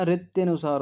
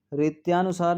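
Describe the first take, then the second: First: रित्यनुसार with a short य, falling; रित्यनुसार, the corrected form said clearly; correct form shown. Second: रित्यानुसार with a long या, the wrong form; रित्यानुसार, stretched या as the mistake; wrong form shown. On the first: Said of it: "होता है". (रित्यनुसार, सही उच्चारण) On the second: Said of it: "नहीं होता". (रित्यानुसार, गलत उच्चारण दिखाना) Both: Shown as a demonstration.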